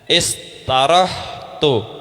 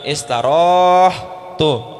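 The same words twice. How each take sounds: First: The vowel before the h is short. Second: The vowel before the h is long. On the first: The speaker calls it right. "maka alifnya dihilangin jadi istarohtu" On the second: The speaker calls it wrong. "bukan istarohtu"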